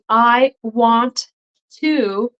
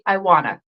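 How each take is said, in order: First: Each word is said separately and in full. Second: The words run together as one reduced form. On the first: "instead of saying I want to" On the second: "they will say I wanna"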